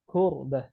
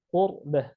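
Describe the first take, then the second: First: The first consonant is a k with breath. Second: The first consonant is deep without breath. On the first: The speaker calls it wrong. "huruf kaf itu ada nafas yang mengalir sedikit" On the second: The speaker calls it right. "Huruf qaf"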